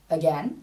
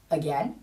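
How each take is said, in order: The two takes are said the same way.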